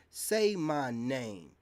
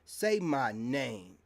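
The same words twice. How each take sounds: First: Drawn out slow and firm again, same weight; slow taunt. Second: Slow taunt. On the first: Repeating it to his critics, a slow drawn-out taunt. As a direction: drag each word out like a dare. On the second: To online women critics, a slow drawn-out taunt. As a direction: say my name, drawn out slow and firm. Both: Real, not acted.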